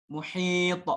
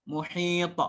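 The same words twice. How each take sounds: No difference in how they are said.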